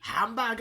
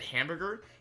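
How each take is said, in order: First: The word is said in a very intense way. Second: The word is said in a plain, normal way.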